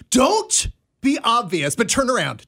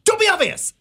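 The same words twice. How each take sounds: First: Imitating a friend's mild warning; retold urgent instruction. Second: Much higher, urgent mock warning; retold urgent warning. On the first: Dana warning her friend not to be obvious, mildly urgent retelling. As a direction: give a covert order, playfully retold. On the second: Dana repeating her warning to a friend, high-pitched urgent retelling. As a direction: squeak out the warning, imitating a panicky friend. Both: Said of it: "she was like".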